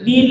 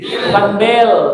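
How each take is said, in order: First: The vowel sounds like 'ee'. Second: The vowel sounds like 'eh'. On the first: The speaker calls it right. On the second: The speaker calls it wrong.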